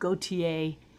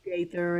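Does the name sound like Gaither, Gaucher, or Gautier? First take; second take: Gautier; Gaither. First: The name is said like Gautier, ending in ay. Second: The name is said like Gaither, with a th. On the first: This is how it is said in some places. "In some places they go with" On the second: This is how it is said in Nashville. "here in Nashville"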